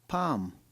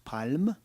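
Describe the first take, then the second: First: The l sound is not pronounced. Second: The l sound is pronounced. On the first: The speaker calls it right. "A silent L" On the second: The speaker calls it wrong.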